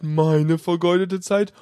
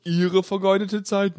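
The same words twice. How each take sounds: First: Slower, weight on meine in "meine vergeudete Zeit"; threatening operator stressing meine to the caller. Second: Weight on Ihre in "Ihre vergeudete Zeit"; threatening operator stressing Ihre to the caller. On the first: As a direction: lean on meine, then drag out Zeit. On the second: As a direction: lean on Ihre, the caller's wasted time. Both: Acted. Operator contrasts your and my.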